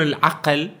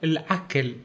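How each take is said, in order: First: العقل with a standard q sound; formal Arabic q in العقل; standard pronunciation. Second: العكل with a k sound in place of q; local pronunciation. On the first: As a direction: say العقل with a proper q from the throat. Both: Shown as a demonstration. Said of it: "ما يقولون العقل".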